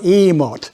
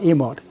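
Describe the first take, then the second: First: The vowel is long and drawn out. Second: The vowel is short and clipped. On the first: The speaker calls it right. "It's drawn out emote" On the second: The speaker calls it wrong. "It's not emote"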